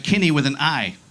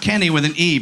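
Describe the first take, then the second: First: "Kenny" with a short i, as in skinny. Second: "Kenny" with an open e, as in pen. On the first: Comic corrects the name for the crowd, "Kenny" said as Kinny. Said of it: "Kenny with an I". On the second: Comic rules out the usual name, "Kenny" with a clear e. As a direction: say "Kenny" the standard way, rhyming with penny. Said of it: "not Kenny with an E". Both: Shown as a demonstration.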